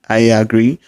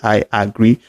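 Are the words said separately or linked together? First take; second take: linked; separately. First: The words run smoothly together as one unit. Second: Each word is said separately and fully. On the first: The speaker calls it right. "this is the way a native speaker would pronounce" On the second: The speaker calls it wrong. "a native speaker won't spell it out with all mouth and say I agree"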